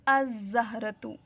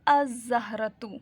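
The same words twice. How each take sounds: No difference in how they are said.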